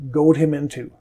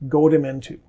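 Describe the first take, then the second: No difference in how they are said.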